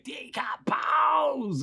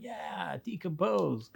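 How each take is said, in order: First: High, long drawn-out mock yell; imitated toy monster yell. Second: Softer, higher imitated kid; kids' echoing response. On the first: Toy monster yelling at the kids, mock yell. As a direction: stretch it into a high monster cry without much volume. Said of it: "They, like, would yell". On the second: Kids answering the monster toys, soft imitated echo. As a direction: echo the monster small and hushed. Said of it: "And we'd be like".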